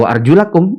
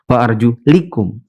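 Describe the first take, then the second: First: The vowel before -kum is a. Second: The vowel before -kum is i. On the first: The feet are washed. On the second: The feet are wiped.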